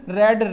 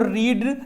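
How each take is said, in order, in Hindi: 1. स्वर छोटा है, 'red' जैसा। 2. स्वर लंबा है, 'reed' जैसा। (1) "इसका उच्चारण भी बदल जाता है" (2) "देखो रीड"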